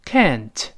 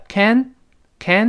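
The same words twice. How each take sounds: First: "Can't" said slowly with the final t released; slow full form. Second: "can" cut off, its final t swallowed; quick-speech form. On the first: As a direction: let the t of "Can't" be clearly heard. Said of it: "是慢慢读". (慢读Can't，t读出来) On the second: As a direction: stop "can't" short without releasing the t. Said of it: "读快了". (can't快读，词尾t失爆) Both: Shown as a demonstration.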